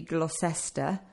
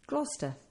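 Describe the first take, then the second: First: Every written part of the name is pronounced. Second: The name is pronounced in a shortened form. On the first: The speaker calls it wrong. "It actually looks as if it should be Gloucester" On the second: The speaker calls it right. "But it's Gloucester"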